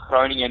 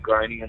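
First: It has the Dutch throaty G sound. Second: It has an Australian English hard G sound.

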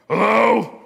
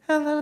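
First: It is said in a deep, gruff voice. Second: It is said in a sweet, light voice.

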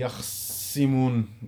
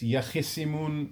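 First: No vowel follows the kh sound. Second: An 'i' vowel follows the kh sound. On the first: This is the reading of a third tradition. "with like it's a ijtima' sakinin" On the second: This is the reading of one tradition. "in the qira'ah of Kufa"

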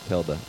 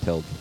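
First: The final E is pronounced as a syllable. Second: The final E is silent.

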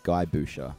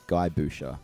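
First: The name is given an Australian reading. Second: The same.

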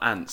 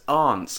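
First: It is said the typical American way. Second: It is said the non-American way. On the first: "and not aunts" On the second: "who actually says aunts"

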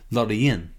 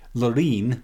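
First: The name is pronounced the Swedish way. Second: The name is pronounced the English way.

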